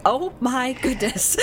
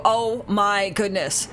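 First: Put-on higher, slow old-person oh my goodness; imitating kids sounding like old folks; old people voice. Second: Slow, drawn-out exasperated oh my goodness; exasperated exclamation. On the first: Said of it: "they sounded like old people going". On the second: Shown as a demonstration. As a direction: sigh it out slowly instead of swearing. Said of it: "you know, like that".

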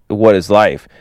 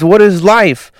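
First: Said in the usual way. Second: High-pitched acted existential panic; mock freak-out. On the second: Manny demanding answers from Hank, freaking out. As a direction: cry it out as an overwhelmed character. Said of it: "freaking out".

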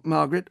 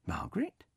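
First: Said in the usual way. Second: Hushed, breathless recognition; whispered disbelief. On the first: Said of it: "peering at the screen". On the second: Acted. Man recognising an old classmate, whispered. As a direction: whisper her name in wonder. Bernard recognises her face.

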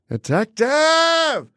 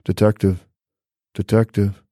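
First: Long high scream of detective; [name] screaming. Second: Unassuming [name] voice. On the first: Imagining [name] screaming detective at the detective. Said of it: "funny to hear [name]". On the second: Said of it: "this very unassuming voice". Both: Retold or imitated.

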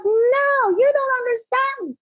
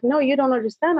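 First: High-pitched retold yell, drawn out. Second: Said in the usual way. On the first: Distraught woman to the speaker calming her down, imitated high yell. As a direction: mimic a desperate cry of protest, pitch soaring. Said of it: "She yells at me". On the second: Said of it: "she was crying profusely".

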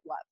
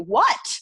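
First: "What?" with the T held in, no release; unreleased T. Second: "What?" louder, with a crisp released T at the end. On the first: Coach demos a casual "What?" with an unreleased T. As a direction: clip "What?" by stopping the air on the T. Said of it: "we won't release it". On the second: Frustrated speaker nobody is listening to, sharp "What?" with released T. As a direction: spit out the T of "What?" like you've said it eighty times. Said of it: "we hear a T sound at the end". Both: Shown as a demonstration.

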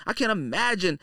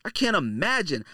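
Both takes have the same delivery.

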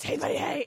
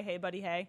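First: Lightly imitated small child; adorable little voice. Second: Low, soft creep greeting; creeper voice. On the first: Host imitates Caitlin's greeting, adorable little voice. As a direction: say it like a cute little kid. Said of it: "in her adorable little voice". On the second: Retold or imitated. Host demonstrates what Caitlin was taught, creeper voice. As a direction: say it like a lurking creep. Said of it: "But with the creeper voice".

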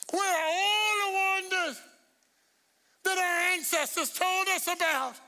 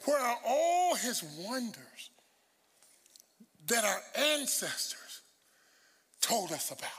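First: High, drawn-out pulpit cry; preaching shout. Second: Very slow, measured scripture reading with pauses. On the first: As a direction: cry the verse out to the congregation. Verse repeated as preaching climax. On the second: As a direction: spell out the verse phrase by phrase. Rereading verse slowly for emphasis. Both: Shown as a demonstration.

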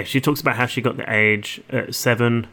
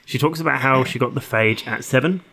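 First: "age" said with its first consonant missing; "age" slipped out in place of phage; slip of tongue. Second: "phage" said with a clear f at the start; "phage" beginning with an f sound, rhyming with age; corrected pronunciation. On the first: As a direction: drop the f sound, leaving "age". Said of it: "the phage, sorry". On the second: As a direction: restate it carefully with "phage". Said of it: "I can't talk". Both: Real, not acted.

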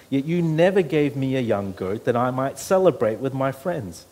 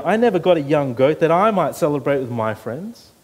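First: Said in the usual way. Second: "I" punched loud at the start of "I never got"; loud emphatic "I" in "I never got a young goat"; stress on I. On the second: Shown as a demonstration. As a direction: hammer the selfish "I". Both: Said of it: "how many times he says the word "I".

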